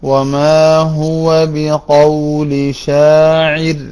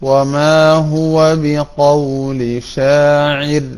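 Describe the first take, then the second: No difference in how they are said.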